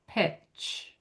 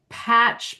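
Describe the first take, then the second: First: The vowel is a short E sound. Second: The vowel is a big open A sound.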